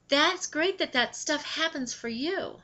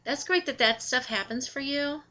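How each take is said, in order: First: It sounds warm and genuinely happy. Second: It sounds flat and sarcastic. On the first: The sender is sincerely glad for them. "you're happy for them" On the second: The reader hears it as insincere. "the tone totally changes"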